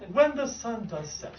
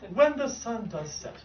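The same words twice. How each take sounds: First: It is said in a grand, dramatic stage manner. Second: It is said in a grand, dramatic stage manner.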